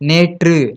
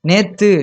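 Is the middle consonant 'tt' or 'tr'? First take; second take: tr; tt. First: The middle consonant is a trilled 'tr' cluster. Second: The middle consonant is a plain double 't'. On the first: The speaker calls it right. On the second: The speaker calls it wrong. "நேத்துன்னு சொல்லக்கூடாது"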